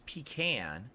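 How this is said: It is pronounced the East Coast way. "on the East Coast it's pecan"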